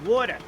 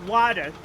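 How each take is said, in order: First: "Water" as "waw-tuh"; corrected pronunciation. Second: "water" as "wah-der"; "water" mimicked as "wah-der"; rejected pronunciation. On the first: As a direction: round the first vowel of "Water" to "aw". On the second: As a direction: say "water" with an open "ah". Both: Shown as a demonstration. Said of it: "Not water".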